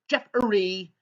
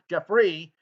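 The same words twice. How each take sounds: First: The name is said with three syllables. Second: The name is said with two syllables. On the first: The speaker calls it wrong. "it's spelled J E F F E R Y. So it's Jeffrey" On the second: The speaker calls it right. "not Jeffrey"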